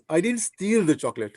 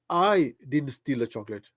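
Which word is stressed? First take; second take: steal; I. First: The stress is on the word steal. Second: The stress is on the word I.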